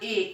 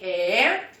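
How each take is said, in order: First: The vowel is a closed e. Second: The vowel is an open e. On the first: "em vez de eu falar"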